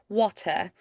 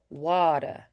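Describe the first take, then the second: First: It has a British accent with a crisp T. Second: It has a Southern drawl with a soft T. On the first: "British would have more crispness to like the T's" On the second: "the like Georgia drawl is actually pretty similar to like a British accent with kind of the lilt"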